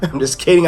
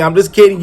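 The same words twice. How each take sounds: First: Laughing while taking back the joke. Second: Said in the usual way. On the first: Real, not acted. Reviewer laughing off her simp joke, giggling. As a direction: giggle through it.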